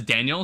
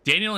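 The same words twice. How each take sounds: First: Daniel said the Spanish way; Spanish pronunciation. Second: Said in the usual way. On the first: Shown as a demonstration. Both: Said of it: "Daniel in Spanish is Daniel".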